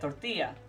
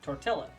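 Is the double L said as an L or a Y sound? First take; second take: Y sound; L sound. First: The double L sounds like a Y. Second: The double L sounds like an L. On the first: The speaker calls it right. "the two L's are pronounced more like a Y sound" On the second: The speaker calls it wrong. "as opposed to"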